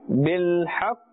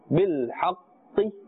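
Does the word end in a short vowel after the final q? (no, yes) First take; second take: no; yes. First: The word stops on the q sound. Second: A short i vowel follows the q sound. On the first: The speaker calls it right. "We are stopping at the sound of the qaf without pronouncing its haraka" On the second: The speaker calls it wrong. "We are not saying bil haqqi"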